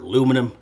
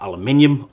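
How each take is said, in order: First: It is said the American way, four syllables. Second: It is said the British way, five syllables.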